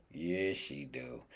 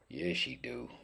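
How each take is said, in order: First: Soft, low, drawn-out yes; low, slow answer. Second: High-pitched, softly cooed yes; high, soft answer. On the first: Cook admiring his duck to himself, low slow answer. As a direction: drop low and stretch it slowly. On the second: Cook admiring his duck to himself, high soft answer. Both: Pretend.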